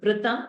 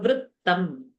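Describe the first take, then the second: First: The t sound in the middle is short. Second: The t sound in the middle is doubled. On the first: The speaker calls it wrong. "So not Vritam" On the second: The speaker calls it right. "there are double the, so Vrittam"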